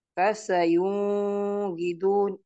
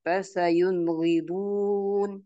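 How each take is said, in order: First: Slow recitation, long hum on "yun" in "fasayunghidun"; wrong held nun. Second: Slow recitation, short N in "Fasayunghidun"; no hum inside "Fasayunghidun"; correct clear nun. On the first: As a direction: blur the first N of "fasayunghidun" into a hum. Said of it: "Ini tidak benar". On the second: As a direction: go straight from N to gh in "Fasayunghidun". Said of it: "yang benar adalah dibaca jelas". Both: Shown as a demonstration.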